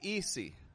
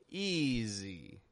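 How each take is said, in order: First: The middle consonant is a hissing S sound. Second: The middle consonant is a buzzing Z sound. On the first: The speaker calls it wrong. "I'm not pronouncing the S like a S. I'm not saying easy" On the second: The speaker calls it right. "I'm giving the S a little bit more voice. Z"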